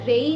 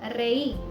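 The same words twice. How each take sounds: First: The r sound is light and weak. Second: The r sound is strong and forceful. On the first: The speaker calls it wrong. "रातोन या रेई नहीं बोला" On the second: The speaker calls it right. "हमने बोला है"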